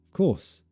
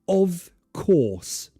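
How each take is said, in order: First: The vowel in 'of' is barely pronounced. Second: The vowel in 'of' is fully pronounced. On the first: The speaker calls it right. "I don't really pronounce the vowel sound at all" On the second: The speaker calls it wrong.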